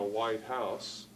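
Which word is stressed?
house. The stress falls on the word house. "which is adjective plus a noun"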